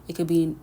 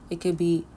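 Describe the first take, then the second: No difference in how they are said.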